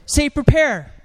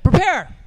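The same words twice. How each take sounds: First: Said in the usual way. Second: Loud call. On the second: Shown as a demonstration. Preacher urging the congregation to shout louder. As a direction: shout prepare. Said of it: "Better than that".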